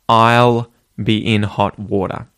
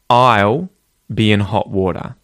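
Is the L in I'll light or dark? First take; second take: light; dark. First: The L in I'll is a light L. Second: The L in I'll is a dark L. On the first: "This can either be a light L or a dark L" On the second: "you can use the dark L where instead it sounds like a reverse W sound"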